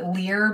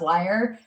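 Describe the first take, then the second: First: The word sounds like 'lear'. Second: The word sounds like 'liar'. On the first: This is the speaker's habitual reading of the word. The speaker calls it wrong. "I've always pronounced it Lear" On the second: This is the accepted pronunciation of the word. The speaker calls it right. "I know it's supposed to be pronounced liar"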